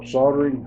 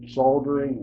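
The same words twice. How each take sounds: First: It is said the American way. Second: It is said the British way.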